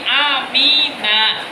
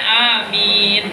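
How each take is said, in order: First: The word ends with a short 'a' vowel. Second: The word ends on the consonant 'n'. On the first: The word is read in running speech, not at a stop. "dibaca mabni fathah" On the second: The word is read at a stop. "kalau wakaf bacanya amin"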